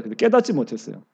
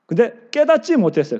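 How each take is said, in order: First: Soft echo. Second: Said in the usual way. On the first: Shown as a demonstration.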